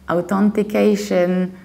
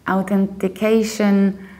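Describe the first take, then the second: Both takes have the same delivery.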